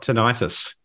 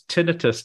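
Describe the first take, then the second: First: The ending is said like '-itis', 'eye-tus'. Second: The ending is said like 'ih-tus', not '-itis'. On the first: The speaker calls it wrong. "not tinnitus, I am told, because it's not an itis" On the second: The speaker calls it right. "it's tinnitus"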